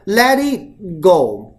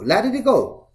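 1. t 和 g 完全送出来了，说得比较慢。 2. t 和 g 被吞掉了，说得比较快。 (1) "你总不能let it go，不是这样子的" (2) "包括你说话说快了"

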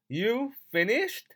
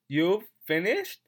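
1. Have 弱化并与后面连读，语速快。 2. Have 弱化并与后面连读，语速快。

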